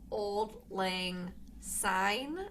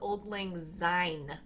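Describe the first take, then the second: First: Syne begins with a hissing S sound. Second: Syne begins with a buzzing Z sound. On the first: The speaker calls it right. "it's a bloody S" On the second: The speaker calls it wrong.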